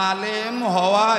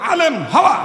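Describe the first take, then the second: First: The phrase is said in a calm, plain voice. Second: The phrase is shouted forcefully, like a roar. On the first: The speaker calls it wrong. "এভাবে কইলে তো আরো দূরে দিব গা" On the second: The speaker calls it right. "একটু হুঙ্কার দিয়ে কইতে হবো"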